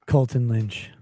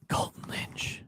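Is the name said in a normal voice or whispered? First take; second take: normal; whispered. First: It is said in a normal voice. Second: It is said in a whispery voice.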